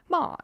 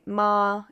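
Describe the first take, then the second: First: It is said in the fourth tone. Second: It is said in the first tone. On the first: It means to scold. "Fourth tone" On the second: It means mother. "the first tone, if I say ma"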